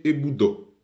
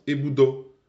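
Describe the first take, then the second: First: Eboudo with the final syllable falling; Eboudo, end going down for the past; past-tense Eboudo falling at the end. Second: Eboudo with the final syllable rising; Eboudo, end going up for the present; present-tense Eboudo rising at the end. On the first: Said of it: "c'est passé, c'est terminé". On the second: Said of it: "c'est au présent, donc ça monte". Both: Shown as a demonstration.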